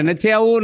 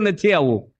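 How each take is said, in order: First: Mock shout. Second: Said in the usual way. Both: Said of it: "ફળિયામાં બૂમો પાડે".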